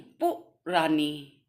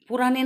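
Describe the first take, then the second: First: पुरानी drawn out very slowly, split after पु; slow, lower पु... रानी, syllables set apart; correct pronunciation demo. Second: पुरानी said quickly as one unbroken word; wrong pronunciation demo. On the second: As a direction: show the faulty way of saying पुरानी. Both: Shown as a demonstration. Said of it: "पुरानी नहीं".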